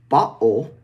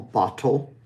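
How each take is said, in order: First: The T is replaced by a catch in the throat. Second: The T is a fully released, clear T. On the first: "where we use a glottal stop" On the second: "which is very, very um, formal"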